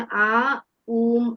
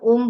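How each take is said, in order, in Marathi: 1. तो दीर्घ 'a' आणि मग 'u' असा म्हटला जातो. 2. तो एकाच 'o' स्वराने म्हटला जातो. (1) "खरा उच्चार आहे" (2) "आपण ओम बोलतो पण"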